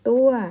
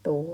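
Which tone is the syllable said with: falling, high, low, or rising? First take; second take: falling; rising. First: The syllable is said with a falling tone. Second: The syllable is said with a rising tone. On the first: "ไม่โทตัว" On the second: "ไม่จัตวาตัว"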